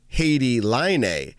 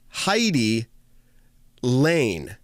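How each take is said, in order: First: The name is said with its native vowel sounds. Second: The name is said the way English spelling suggests. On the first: "I've learned since I would say Haiti Line" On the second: "when we read this, we read it Heidi Lane. Okay, that's how it looks phonetically"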